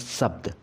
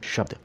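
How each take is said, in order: First: The word begins with an s sound. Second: The word begins with an sh sound. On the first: The speaker calls it wrong. "ये गलत है" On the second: The speaker calls it right. "ये सही है"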